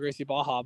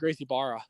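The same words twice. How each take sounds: First: It is said with a Brazilian Portuguese accent. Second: It is said with an American gringo accent.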